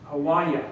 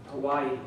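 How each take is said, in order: First: "Hawaii" said ho-WHY-uh, louder; local Hawaii. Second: Said in the usual way. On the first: Shown as a demonstration. Speaker showing the audience the local way to say Hawaii. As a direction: stress "Hawaii" in the middle as ho-WHY-uh.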